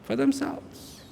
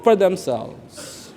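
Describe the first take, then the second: First: Breathless whisper of the same words; whispered aside. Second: Said in the usual way. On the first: Real, not acted. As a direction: drop it to a whisper. Repeats answer under breath.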